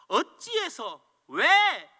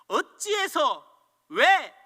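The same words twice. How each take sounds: First: Slow, louder "어찌해서 왜" with falling "왜"; resentful complaint. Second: Loud, rising "어찌해서" then sharp louder "왜"; angry complaint. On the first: Preacher mimics the resentful person, slow and heavy. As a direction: drag it out in grievance. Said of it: "원망하는 사람은". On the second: Preacher voices the angry person's cry at troubles. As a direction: demand why in outrage. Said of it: "분노하는 사람입니까". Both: Pretend.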